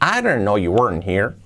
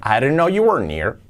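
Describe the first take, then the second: First: The h at the start of 'here' is pronounced. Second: The h at the start of 'here' is dropped. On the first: "Podemos aparecer la H o no" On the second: "como queramos"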